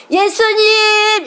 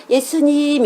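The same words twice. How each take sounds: First: High, loud, long-held shout of 예수님; full-voiced calling out. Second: Imitating a weaker, higher drawn-out 예수님; a call of 예수님 that stays stuck inside; held-back child's call. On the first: Shown as a demonstration. Mother shows children by the river how to call, full-voiced. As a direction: call 예수님 out with all your might, stretched. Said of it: "이렇게 부르면 못해요". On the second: Children cannot shout by the river, held-back call. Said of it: "이래요".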